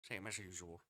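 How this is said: It is said in a put-on old man's voice.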